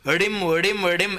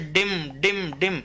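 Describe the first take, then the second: First: The initial consonant is a retroflex flap. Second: The initial consonant is a retroflex stop. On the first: The speaker calls it wrong. "ऐसे तो बोलेंगे नहीं" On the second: The speaker calls it right. "Sanskrit में क्या होता है? ड होता है। जैसे"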